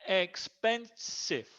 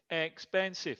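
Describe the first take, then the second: First: "Expensive" very slowly as ex - pen - sive; syllable by syllable. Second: Said in the usual way. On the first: Shown as a demonstration. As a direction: break "Expensive" into three clear beats. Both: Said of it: "three syllables".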